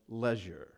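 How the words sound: It is said with a British pronunciation.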